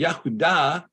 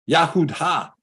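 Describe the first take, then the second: First: The word ends in a plain open 'ah' vowel. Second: The word ends in a breathy 'ha' syllable. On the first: The speaker calls it right. "this is pronounced Ah" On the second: The speaker calls it wrong. "why isn't this Yahud-Ha?"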